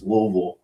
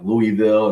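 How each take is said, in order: First: The city name is said the local way. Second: The city name is said the outsider's way. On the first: The speaker calls it right. "It's Louisville" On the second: The speaker calls it wrong. "I kept on saying like Louisville"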